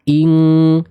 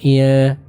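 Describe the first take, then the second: First: The nasal sound is a full ng. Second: The nasal sound is weak and vague. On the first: The speaker calls it right. "tapi ing, ing ... sempurna eng" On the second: The speaker calls it wrong. "bukan iya, iya, ... enggak ngambang suaranya"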